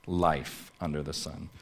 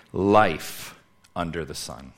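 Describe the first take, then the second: First: "Life under the sun" repeated softly, dropping away; softer echo. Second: "Life under the sun" slow and emphatic, each word leaned on; preacher lands his first point slowly, stressing "Life"; announcing the point. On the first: Preacher repeats the point to congregation, quiet and settled. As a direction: let the phrase sink back down, quieter. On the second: Preacher announcing first point to congregation, slow and emphatic. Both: Shown as a demonstration. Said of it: "we move into our first point".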